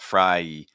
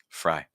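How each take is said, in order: First: The vowel is tense, split into two sounds. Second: The vowel is relaxed, blended into one sound. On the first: The speaker calls it wrong. "So not fry" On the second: The speaker calls it right. "just fry"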